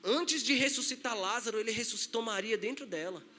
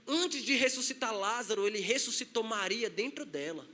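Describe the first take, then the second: No difference in how they are said.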